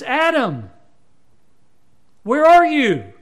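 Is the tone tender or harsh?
tender. It is said in a tender, gentle voice.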